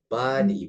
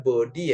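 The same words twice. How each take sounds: First: The first vowel sounds like a. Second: The first vowel sounds like o. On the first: The speaker calls it right. "tapi pakai A ya" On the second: The speaker calls it wrong. "jangan dibaca body ya guys"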